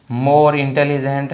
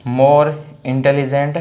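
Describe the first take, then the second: No difference in how they are said.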